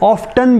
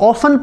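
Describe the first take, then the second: First: It is said with a t sound. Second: It is said without a t sound. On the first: "अगर American accent में आप पढ़ें तो इसको ऑफ्टन भी पढ़ सकते हैं" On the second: "ब्रिटिश में अगर आप पढ़ें तो इसको ऑफन पढ़ेंगे"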